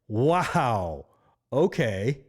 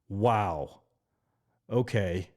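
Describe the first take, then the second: First: It is said in a happy, pleased tone. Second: It is said in a disgruntled, irritated tone. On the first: "Now let's do one where we're happy" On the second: "you say it in a very irritated tone"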